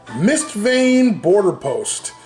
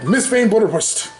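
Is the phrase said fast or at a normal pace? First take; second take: normal; fast. First: The phrase is said at a normal, clear pace. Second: The phrase is rushed, words running together.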